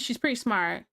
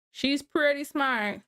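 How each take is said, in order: First: Said in the usual way. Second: "pretty" leaned on, whole line slower; slower, deliberate "She's pretty smart"; drawn-out emphasis. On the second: Shown as a demonstration. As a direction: drag it out with weight on "pretty".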